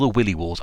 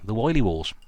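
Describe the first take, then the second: First: The first vowel sounds like 'ill'. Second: The first vowel sounds like 'eye'. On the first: "Willy Wars sounds a bit rude to me" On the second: "I'm going to say Wily Wars"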